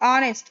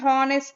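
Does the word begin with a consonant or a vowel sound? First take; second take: vowel; consonant. First: The word begins with a vowel sound. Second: The word begins with a consonant sound. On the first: The speaker calls it right. "ఆ sound వస్తుంది. ఓవెల్ sound" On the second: The speaker calls it wrong. "Not హానెస్ట్"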